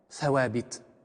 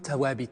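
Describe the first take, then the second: First: The word is said with standard Arabic pronunciation. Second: The word is said with Moroccan Arabic pronunciation.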